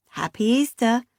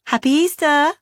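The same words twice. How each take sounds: First: Said in the usual way. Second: High, loud cheery greeting; cheery Beth. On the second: A narrator's reading. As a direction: sing it out like a bubbly sister. Sister's cheery phone greeting.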